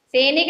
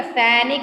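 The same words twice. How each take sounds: First: Teacher voices the wrong सैनिक to pupils; wrong form said. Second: Teacher gives the correct सैनिक to pupils; correct form said. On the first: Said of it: "सैनिक नहीं होता". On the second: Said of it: "सैनिक होता है". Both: Shown as a demonstration.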